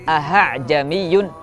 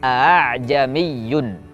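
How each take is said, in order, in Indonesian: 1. Hamzah kedua diucapkan penuh. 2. Hamzah kedua dilunakkan. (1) "tidaklah tepat" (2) "kita baca menjadi a'jamiyun"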